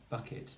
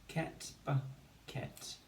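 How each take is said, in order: First: Said in the usual way. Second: Slow, separated bucket syllables. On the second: Shown as a demonstration. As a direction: blend ket, then split bucket in two. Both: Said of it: "Two syllables".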